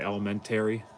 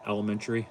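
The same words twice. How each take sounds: First: The 'a' vowel is broad and drawn out. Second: The 'a' vowel is plain and standard. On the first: This is the local Western New York dialect. "Heavy on the A's. Like elementary. Like that's how how I say it" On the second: This is not how the local dialect says it. "Not elementary"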